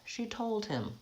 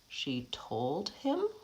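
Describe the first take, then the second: First: The pitch falls at the end. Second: The pitch rises at the end. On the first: It is a statement. "I have to fall off to show the end of the phrase" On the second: It is a question. "I'm going up in pitch. That's asking a question"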